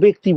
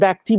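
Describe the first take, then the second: First: The first vowel is an 'e' sound. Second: The first vowel is an open 'a' sound. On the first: The speaker calls it right. "পরের হ্রস্বই থাকলে আগের জফলাটাকে এ বলে বলতে হয়" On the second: The speaker calls it wrong. "ব্যক্তি বলো না তো"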